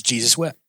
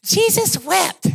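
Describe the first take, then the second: First: Said in the usual way. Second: High, drawn-out, grandly declaimed recitation; boy reciting verse. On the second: Acted. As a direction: proclaim it slowly like a kid showing off a memorized verse. Boy proudly recites his short verse.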